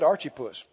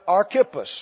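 First: The name is said in a southern Missouri pronunciation. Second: The name is said in a plain pronunciation.

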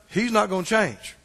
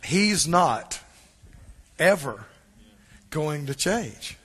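First: It is said at normal speed. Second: It is said very slowly.

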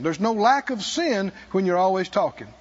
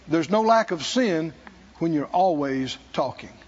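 First: The sentence is spoken at a normal pace. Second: The sentence is spoken very slowly.

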